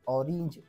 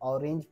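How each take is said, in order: First: The last syllable ends with an 'ij' sound. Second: The last syllable ends with an 'enj' sound. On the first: This follows the rule. "इज असा उच्चार काढायचा आहे" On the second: This is how some people say it. "पण काही लोक म्हणतात"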